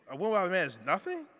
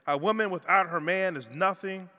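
First: The voice rises at the end like a question. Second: The voice falls at the end like a statement.

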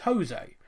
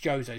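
First: The name is said the Mexican way. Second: The name is said like 'Joe-say'. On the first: The speaker calls it wrong. "you'll pronounce it the Mexican way" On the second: The speaker calls it right. "it's Jose. So I wrote phonetically, Joe, say"

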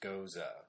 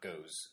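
First: The word ends in an 'uh' vowel. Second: The word ends in an 's' sound. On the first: The speaker calls it right. "which is gosa" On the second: The speaker calls it wrong. "not goes or ghosts or however I wanted to pronounce it originally"

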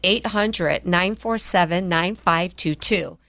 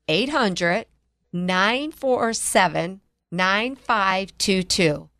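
First: The number is said at normal speed. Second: The number is said slowly.

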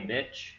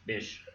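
First: The word ends with a 'ch' sound. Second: The word ends with a 'sh' sound. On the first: The speaker calls it wrong. "bitch has a T" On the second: The speaker calls it right. "I believe it's pronounced bish"

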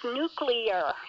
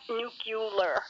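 First: The word ends with a 'clear' sound. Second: The word ends with a 'cular' sound. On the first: The speaker calls it right. "It is nuclear" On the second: The speaker calls it wrong. "It is not nuclear"

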